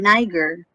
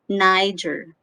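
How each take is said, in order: First: The g is pronounced as a hard g. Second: The g is pronounced as a j sound. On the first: The speaker calls it wrong. "some people mispronounce this as Niger or Niger because this is letter G" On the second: The speaker calls it right. "Without knowing, it's Niger"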